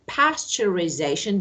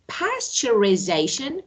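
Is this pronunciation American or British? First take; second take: American; American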